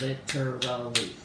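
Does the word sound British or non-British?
non-British. The word is said with a non-British pronunciation. "others pronounce it"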